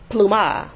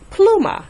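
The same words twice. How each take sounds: First: The stress is on the last syllable. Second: The stress is on the first syllable. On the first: The speaker calls it wrong. "not pluma" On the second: The speaker calls it right. "the stress would fall on the plu"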